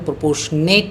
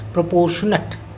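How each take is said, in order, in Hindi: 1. आखिरी अक्षर में पूरा 'ate' स्वर है। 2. आखिरी अक्षर में हल्का 'ut' स्वर है। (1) "इसका उच्चारण प्रोपोर्शनेट नहीं करिएगा" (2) "प्रोपोर्शनट अट है यहाँ पर"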